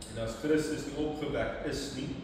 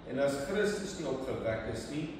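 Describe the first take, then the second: Both takes have the same delivery.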